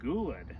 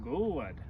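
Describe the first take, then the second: First: The word is said with lively, varied pitch. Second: The same.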